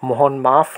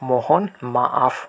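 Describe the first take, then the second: First: Maaf is said as one short syllable. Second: Maaf has a break between its two vowels. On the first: The speaker calls it wrong. "মোহন মাফ না হয়ে" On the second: The speaker calls it right. "প্রথম এর পরে পজ দিয়ে দ্বিতীয় এ থেকে নতুনভাবে"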